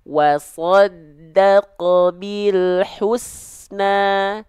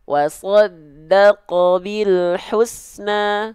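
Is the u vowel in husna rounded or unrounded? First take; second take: rounded; unrounded. First: The u vowel is said with lips pushed forward. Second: The u vowel is said without pushing the lips forward. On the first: The speaker calls it right. "huruf berharokat dhamma itu hanya akan sempurna jika monyong" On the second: The speaker calls it wrong. "jangan sampai dilafalkan harokat dhammanya hanya macam itu saja ... Keliru"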